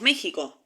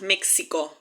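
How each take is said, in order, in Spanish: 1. La consonante del medio es una h gutural. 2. La consonante del medio se dice como ks. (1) "acá decimos México" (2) "acá no decimos México"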